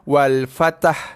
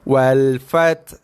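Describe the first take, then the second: First: The t and h merge into an added vowel. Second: The t is followed by a breathy h. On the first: The speaker calls it wrong. "tu cantum sekali" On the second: The speaker calls it right. "bunyi sifat hembusan nafas sahaja"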